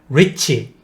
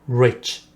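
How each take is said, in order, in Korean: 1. 마지막 ch는 강해요, 완전한 음절처럼요. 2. 마지막 ch는 약한 맨자음이에요. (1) "이런 식으로 발음하는 거 아닙니다" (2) "치읍 발음만 하는 거예요"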